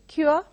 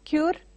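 First: The word ends with no 'r' sound. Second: The word ends with an audible 'r' sound. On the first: The speaker calls it right. "R is silent over there" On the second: The speaker calls it wrong. "It is not cure"

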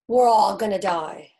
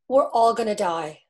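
First: It is said flatly, without real commitment. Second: It is said with real, committed emotion.

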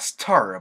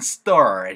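First: The t is aspirated with a puff of air. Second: The t is tense, without a puff of air. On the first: The speaker calls it wrong. "stir 보다는" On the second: The speaker calls it right. "된 소리가 살짝 나죠"

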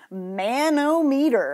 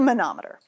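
First: The word is said in the rejected pronunciation. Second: The word is said in the preferred pronunciation. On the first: The speaker calls it wrong. "it's not pronounced manometer. I've heard people pronounce it that way" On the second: The speaker calls it right. "It's a manometer"

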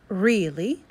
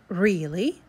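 First: The first vowel is a long E sound. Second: The first vowel is a long E sound.

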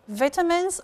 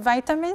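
First: It is said with a British pronunciation. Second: It is said with an American pronunciation. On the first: "British pronunciation" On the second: "American pronunciation"

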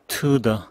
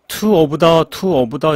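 First: The words are squeezed into a short 'to the'. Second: Every word is pronounced fully and carefully. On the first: The speaker calls it right. "two of the 라고 하지 않고 to the" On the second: The speaker calls it wrong. "이렇게 힘들게 하실 필요가 없습니다"

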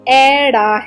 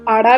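First: The first vowel is an 'ai' sound. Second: The first vowel is a long open 'aa'. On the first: This is the standard traditional way of saying it. The speaker calls it right. "ਪਰ ਇਸ ਦਾ ਸਹੀ ਉਚਾਰਨ ਐੜਾ ਹੈ" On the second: This is a popular modern way of saying it. The speaker calls it wrong. "ਅੱਜ ਕੱਲ੍ਹ ਲੋਕ ਇਸ ਨੂੰ ਆੜਾ ਵੀ ਕਹਿਣ ਲੱਗ ਗਏ ਹਨ"

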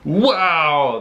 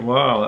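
First: The wow sounds sincere and genuinely amazed. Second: The wow sounds forced and insincere. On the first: The speaker calls it right. "that sounds more real" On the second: The speaker calls it wrong. "that's sounding fake"

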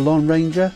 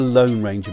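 First: The vowel in 'Lone' is short, as in 'on'. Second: The vowel in 'Lone' is long, as in 'own'. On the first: The speaker calls it wrong. "Is that the Lone Ranger? No, it's not" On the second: The speaker calls it right. "O-N-E is most commonly pronounced as own"

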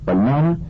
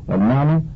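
Both takes have the same delivery.

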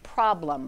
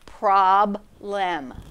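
First: The second syllable has a reduced schwa vowel. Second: The second syllable has a full, clear vowel. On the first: This is the everyday way of saying the word. "I would say this word is problem" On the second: Each letter is sounded out to help with spelling. "pronounce it like it would be if you were reading it phonetically correct"

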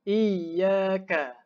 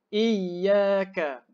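Both takes have the same delivery.

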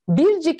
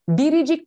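First: No vowel is heard between the two parts. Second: An extra i vowel joins the two parts. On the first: The speaker calls it wrong. "Biz bircik mi diyoruz" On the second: The speaker calls it right. "Biricik diyoruz"

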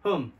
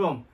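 First: The word is said in a weak, reduced form. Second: The same.

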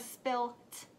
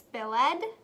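First: The word ends with a 't' sound. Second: The word ends with an extra 'ed' syllable. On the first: "or spilt?" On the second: "Is it spilled"

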